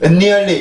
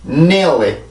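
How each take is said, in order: First: An extra vowel sound comes before the n. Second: The word starts directly on the n sound. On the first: The speaker calls it wrong. "은리얼리 이러려고 하지 말고" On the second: The speaker calls it right. "해보고 넘어갈게요"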